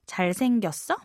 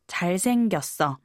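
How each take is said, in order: First: The pitch rises at the end. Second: The pitch falls at the end. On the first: It asks whether he is handsome. "you might ask 잘생겼어 to ask, is he good looking?" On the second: It states that he is handsome. "meaning, yes, he is good looking"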